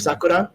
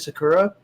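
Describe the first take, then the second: First: The name is said with Japanese-style sounds. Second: The name is said with English-style sounds. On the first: The speaker calls it right. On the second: The speaker calls it wrong.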